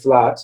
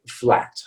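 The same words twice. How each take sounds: First: The vowel is not the American one. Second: The vowel is the American one. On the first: The speaker calls it wrong. "in American English we wouldn't say flat" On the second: The speaker calls it right. "we would say flat"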